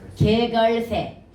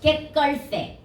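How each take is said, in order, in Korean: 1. 자음은 예사소리로 발음해요, 된소리가 아니에요. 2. 자음은 된소리로 발음해요, 예사소리가 아니에요. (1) "쓸 때는 개걸새야" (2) "발음은 뭐야? 된소리 되기 위해서 깨걸새야"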